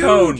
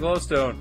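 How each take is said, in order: First: The word is said in a put-on voice. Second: The word is said in a natural voice. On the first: The speaker calls it right. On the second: The speaker calls it wrong.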